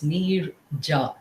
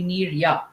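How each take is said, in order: First: The second syllable starts with a 'j' sound. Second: The second syllable starts with a 'y' sound. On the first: The speaker calls it right. "I have to specify that J is not silent" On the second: The speaker calls it wrong. "many uh, places they'll call me Nirya"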